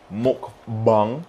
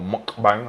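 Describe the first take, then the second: First: Mukbang said as MOOK-bung, rising; mukbang with a short U in the last syllable; first try at the word. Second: Mukbang said as MOOK-bang, as in cat; mukbang with the A of "bang" at the end; second try at the word. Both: Shown as a demonstration. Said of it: "I don't even know how you say it".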